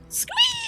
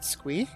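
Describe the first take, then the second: First: It is said as a lively exclamation. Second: It rises like a hesitant question.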